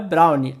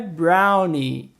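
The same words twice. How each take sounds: First: It is said with Portuguese-style pronunciation. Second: It is said with English pronunciation. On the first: The speaker calls it wrong. "não é brownie" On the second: The speaker calls it right. "A pronúncia correta é brownie"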